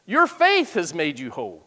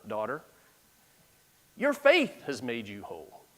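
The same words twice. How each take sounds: First: Faith pressed with a falling tune; stress on faith. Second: Tender Jesus. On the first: Shown as a demonstration. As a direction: lean on the word faith. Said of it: "The emphasis was on the faith". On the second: Acted. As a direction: say it gently to the healed woman. Jesus speaks tenderly to woman.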